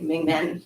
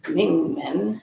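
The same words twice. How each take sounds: First: It is said with an American English pronunciation. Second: It is said with an attempted Chinese pronunciation. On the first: "I pronounce it very American, I would always say Ming Men" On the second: "but it's actually Ming Men"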